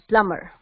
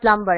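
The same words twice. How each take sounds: First: It is said in the American way. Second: It is said in a non-American way. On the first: The speaker calls it right. "correct American pronunciation" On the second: The speaker calls it wrong. "it's not plumber"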